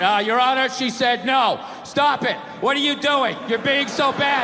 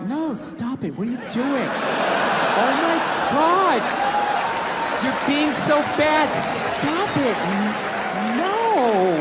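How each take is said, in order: First: Deadpan courtroom readout; bad read. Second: Slow, swooping, teasing protest; coy fake refusal. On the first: Court reader to the judge, bad wooden read. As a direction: read it out woodenly, stripped of all flirtation. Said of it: "you get a bad read and there's some guy reading it". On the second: Woman pretending it was his idea, coy fake refusal. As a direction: say no while plainly meaning yes, drawn out. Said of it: "that's not a fucking no".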